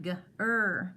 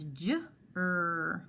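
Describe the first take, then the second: First: The syllable starts with a hard G sound. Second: The syllable starts with a J sound. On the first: The speaker calls it wrong. "if we didn't recognize this G, what made the J sound, then it would be g, er" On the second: The speaker calls it right. "because I know that G E, G I, G Y says j, I know it's j"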